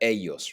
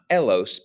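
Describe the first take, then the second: First: The middle consonant is a Y sound. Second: The middle consonant is an L sound. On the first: The speaker calls it right. "but ellos. Remember that the double L is pronounced like a Y" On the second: The speaker calls it wrong. "not elos"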